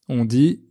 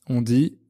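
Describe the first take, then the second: No difference in how they are said.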